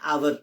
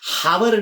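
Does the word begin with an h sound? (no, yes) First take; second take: no; yes. First: The word begins with a vowel, no h sound. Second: The word begins with an h sound. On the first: The speaker calls it right. "आवर and आवर असा शब्द प्रयोग येईल" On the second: The speaker calls it wrong. "हावर नाही म्हणत आपण"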